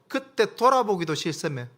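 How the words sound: It is spoken in a regional Daegu dialect.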